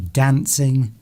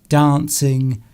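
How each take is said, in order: First: It is said in a northern English accent. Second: It is said in a London accent. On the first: "People up north would probably say dancing" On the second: "London Londoners would probably say dancing"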